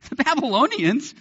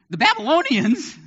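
First: Put-on "The Babylonians?" with a laugh; laughing disbelief. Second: Put-on high, disbelieving "The Babylonians?"; can't believe what God said; incredulous. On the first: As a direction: laugh it off as absurd. Repeated through a laugh. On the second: Habakkuk's incredulous response.

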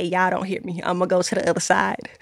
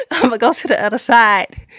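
First: Quick, much softer preacher aside, tossed off; preacher's aside. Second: Hammed-up pulpit delivery, full voice; mock preacher call. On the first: Pretend. Viewers hear her softly toss off a mock preacher line. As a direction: mutter it fast like a preacher's throwaway line. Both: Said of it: "if I was a preacher, I would say".

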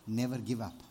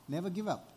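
First: NEVER low and firm, weight on "Never"; stress on never. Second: "give" punched, then a falling close; stress on give. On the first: Preacher urging the congregation, "Never" pressed down low. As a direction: lean into "Never", then settle. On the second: Preacher repeating the charge, "give" stressed and falling. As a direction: hit "give" and let it drop. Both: Shown as a demonstration.

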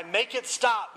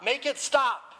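First: Higher, pained plea; anguished begging. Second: Much higher, straining plea; strained anguished cry. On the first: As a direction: beg for the pain to end. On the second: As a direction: let the voice crack upward in agony. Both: A narrator's reading. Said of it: "began to scream in more anguish".

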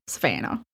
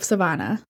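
First: Low, soft mock Southern accent. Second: Said in the usual way. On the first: Aside echoing the town's name, low Southern accent. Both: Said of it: "I actually do a really good Southern accent".

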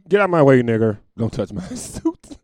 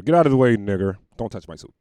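First: Mock street bigot yelling and breaking into laughter. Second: A snarling street bigot. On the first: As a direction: ham up the bigot until you crack up. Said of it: "You used to say that on the street". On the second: Retold or imitated. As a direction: bark it like he owns the sidewalk. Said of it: "He look like he'll call me".

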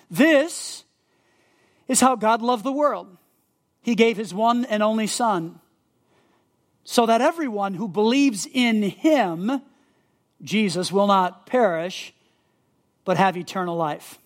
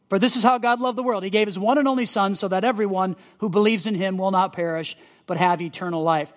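First: Verse read slowly, pausing between phrases; slow deliberate reading. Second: Verse read fast in one run; quick read-through. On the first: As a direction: let each phrase land with a pause. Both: Shown as a demonstration. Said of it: "So John three sixteen".

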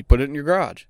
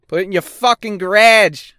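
First: Said in the usual way. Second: "garage" said the Canadian way, with a short flat a as "grädge"; Canadian accent with "garage" clipped to "grädge". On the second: Shown as a demonstration. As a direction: put on a Canadian accent, pitched higher and punchy. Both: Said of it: "That's a fucking Canadian accent".

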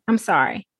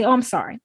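First: The repeated "I'm sorry" sinks lower and trails off; mock apology, dropping. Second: Mock tearful apology. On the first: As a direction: lightly imitate a second sheepish apology. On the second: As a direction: lightly act out someone apologising through tears. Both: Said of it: "they start crying and they say".

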